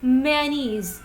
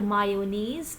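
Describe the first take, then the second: First: The middle has no y sound in it. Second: The middle has a y sound in it. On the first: The speaker calls it right. "There is no ya sound" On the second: The speaker calls it wrong. "It is not mayonnaise"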